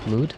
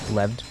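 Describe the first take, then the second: First: The word is said without a v sound. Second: The word is said with a v sound. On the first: The speaker calls it right. "because it's just L E W D, I think, lewd" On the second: The speaker calls it wrong. "I said leved because I didn't understand how to pronounce it"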